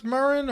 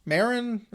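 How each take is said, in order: First: Marin as muh-RIN; stress on second syllable. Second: Marin as MAIR-in; stress on first syllable. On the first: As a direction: say Marin with a weak first vowel, stressing the end. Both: Shown as a demonstration. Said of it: "is it pronounced Marin or Marin".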